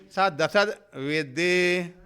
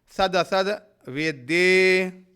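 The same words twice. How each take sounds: No difference in how they are said.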